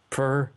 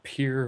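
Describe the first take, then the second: First: The name is said with a 'per' vowel. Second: The name is said with a 'peer' vowel. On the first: The speaker calls it right. "not peer or anything else" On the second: The speaker calls it wrong. "not peer"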